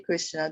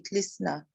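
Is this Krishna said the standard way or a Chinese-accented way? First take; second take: standard; Chinese. First: The name is said with standard pronunciation. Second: The name is said with a Chinese accent. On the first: "they can't say Krishna" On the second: "Chinese devotees ... they say Krishna"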